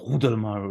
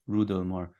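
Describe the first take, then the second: First: The name begins with a harsh, throaty R sound. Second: The name begins with a plain R sound.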